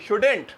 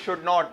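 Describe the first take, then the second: First: It is squeezed into one contracted word. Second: It is said as two separate full words. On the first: The speaker calls it right. "अरे नहीं भाई शुडेंट, सही है भाई" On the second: The speaker calls it wrong. "हम लोग वही शुड नॉट"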